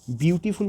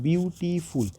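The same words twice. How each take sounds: First: Said in the usual way. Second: "beautiful" broken into three parts, ब्यू-टी-फुल; split into syllables. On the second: Shown as a demonstration. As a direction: sound out each syllable of "beautiful" separately. ("Beautiful" को ब्यू, टी, फुल में तोड़कर बोलें) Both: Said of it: "तीन syllable है".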